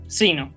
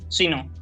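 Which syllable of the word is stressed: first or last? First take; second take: first; last. First: The stress is on the first syllable. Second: The stress is on the last syllable. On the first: The speaker calls it right. "La pronunciación de la conjunción sino es esa" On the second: The speaker calls it wrong. "Y no"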